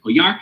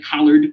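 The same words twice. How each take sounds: First: Collard said French-style, koh-YAR; French pronunciation. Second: Collard said as it looks, KOL-erd; English spelling pronunciation. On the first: Host giving the author's French surname, Collard as koh-YAR. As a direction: say Collard with a Y glide, stressed last syllable, silent D. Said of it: "in French they pronounce it". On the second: Host reading the author's surname as spelt, Collard as KOL-erd. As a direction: read Collard the English way, stress first, hard L and final D. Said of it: "Looks like Collard". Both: Shown as a demonstration.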